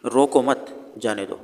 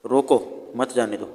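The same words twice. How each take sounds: First: "रोको मत" together, break, then "जाने दो"; slowly group रोको with मत, pause before जाने; pause after मत. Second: "रोको", break, then "मत जाने दो" together; pause after रोको. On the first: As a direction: break the phrase right after मत. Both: Shown as a demonstration. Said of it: "कहाँ पर रुकना है, कहाँ पर नहीं रुकना".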